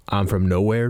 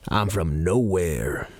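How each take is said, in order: First: Said in the usual way. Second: Slow, flat deadpan Carlin delivery; George Carlin bit. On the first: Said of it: "Try that". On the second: Retold or imitated. Retelling the Carlin bit to listeners, slow deadpan. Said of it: "He's like".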